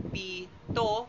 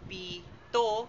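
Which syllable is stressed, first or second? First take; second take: second; second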